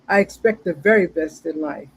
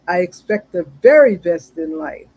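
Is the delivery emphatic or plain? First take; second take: plain; emphatic. First: It is recited plainly, without special conviction. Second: It is recited emphatically, with strong conviction.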